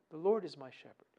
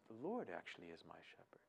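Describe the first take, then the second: First: Said in the usual way. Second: A soft, near-whispered reminder to yourself; quiet self-reminder. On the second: Shown as a demonstration. Preacher shows listeners how to remind themselves, softly murmured. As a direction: hush it inward, almost under the breath. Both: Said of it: "you keep reminding yourself".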